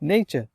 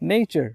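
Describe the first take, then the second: First: British accent, with no r sound at the end. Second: American accent, with an r sound at the end. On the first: "ব্রিটিশদের মতো বলতে চান... আর এর সাউন্ডটা একদম নাই করে দেয়" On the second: "American accent"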